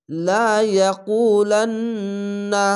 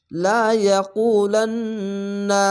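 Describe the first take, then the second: First: Slow, drawn-out chanted recitation with nasal hold; Quran recitation. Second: Slow chanted recitation, nasal hold on না; Quran recitation. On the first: Teacher reciting a verse to students, slow and drawn-out. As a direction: recite it slowly, stretching each sound. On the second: Teacher reciting the verse again after spelling, slow and chanted. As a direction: stretch the verse slowly like tajweed. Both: Shown as a demonstration. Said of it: "এখানে ওয়াজিব গুন্না".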